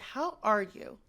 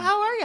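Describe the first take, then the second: First: It sounds like a heartfelt, genuine ask. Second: It sounds like passing small talk.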